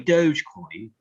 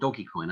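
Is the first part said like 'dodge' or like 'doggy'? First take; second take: dodge; doggy. First: The first part sounds like 'dodge'. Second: The first part sounds like 'doggy'.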